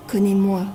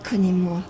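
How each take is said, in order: Both takes have the same delivery.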